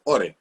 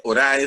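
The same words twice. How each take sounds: First: "ore" with the ending said as a single e sound; "ore", o-re, the ae spoken as plain e; correct Latin pronunciation. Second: "orae" said as o-ra-e, with the final ae as a full a-e glide; "orae" read letter by letter as o-ra-e; wrong pronunciation. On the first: Teacher gives the right Latin reading, "ore" with a closed e ending. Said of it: "sino se dice ore". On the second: Teacher shows the wrong Latin reading of "orae" as o-ra-e. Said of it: "No se dice orae". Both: Shown as a demonstration.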